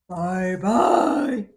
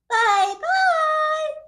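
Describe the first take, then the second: First: It is said in a deep gruff voice. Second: It is said in a middle-pitched voice.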